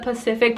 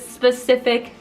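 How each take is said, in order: First: The word is said without its first s sound. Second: The word is said with its first s sound. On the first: The speaker calls it wrong. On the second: The speaker calls it right.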